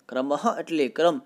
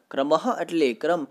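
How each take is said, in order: Both takes have the same delivery.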